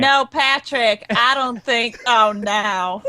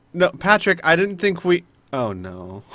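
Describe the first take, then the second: First: Lightly voiced, more even character take; Mila's voice. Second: Lightly imitated voice, dropping on the last words; slightly raised voice, sinking into dismay; Mila's voice on Al. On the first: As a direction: echo the line in Mila's own voice. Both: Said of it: "Mila's voice and touch it to Al".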